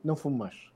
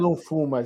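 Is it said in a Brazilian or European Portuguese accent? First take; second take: European Portuguese; Brazilian. First: It is said in a European Portuguese accent. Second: It is said in a Brazilian Portuguese accent.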